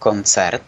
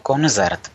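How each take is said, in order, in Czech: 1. Prostřední souhláska zní jako c. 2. Prostřední souhláska zní jako z. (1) "Správně je to samozřejmě z C" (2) "tak často slýchá to koncert"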